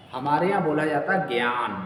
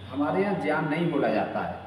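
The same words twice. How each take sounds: First: ज्ञान said as "jnyan", with a j and nasal ny; the teacher shows the right ज्ञान, "jnyan" not "gyan"; correct pronunciation shown. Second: ज्ञान said as "gyan", with a g sound; the teacher shows the common wrong way, ज्ञान as "gyan"; wrong pronunciation shown. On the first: Teacher to students on the right ज्ञान, careful demo. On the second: Teacher to students on the wrong ज्ञान, plain demo. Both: Shown as a demonstration.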